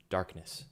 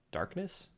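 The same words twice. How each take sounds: First: Said in the usual way. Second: High puzzled rise on Darkness?; surprised question. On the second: Acted. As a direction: echo Darkness? back in disbelief. Echoing the odd code word.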